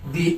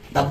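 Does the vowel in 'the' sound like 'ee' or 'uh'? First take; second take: ee; uh. First: The vowel is a long 'ee' sound. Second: The vowel is a short 'uh' sound. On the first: The next word starts with a vowel. "Vowel দিয়ে শুরু হয়, সেক্ষেত্রে দি উচ্চারিত হবে" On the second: The next word starts with a consonant. "Consonant দিয়ে শুরু হয় ... এক্ষেত্রে হবে দা"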